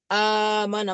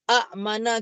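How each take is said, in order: First: A smooth long vowel runs into the m. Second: There is a glottal catch before the m. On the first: "Amana yang lebih mudah sebut" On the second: "tambah hamzah di depan ... akan jadi a'mana"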